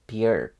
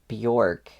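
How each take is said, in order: First: The vowel sounds more like an i. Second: The vowel sounds like a plain o. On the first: The speaker calls it right. "more like an I sound" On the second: The speaker calls it wrong. "I think it's not Bjork"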